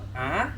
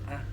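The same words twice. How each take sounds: First: The vowel has a rising, question-like pitch. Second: The vowel is short with a low, dropping pitch. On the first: "merong patanong A" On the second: "yung tuldok lang A"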